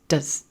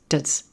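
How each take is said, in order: First: The vowel is reduced to a schwa. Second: The vowel is reduced to a schwa.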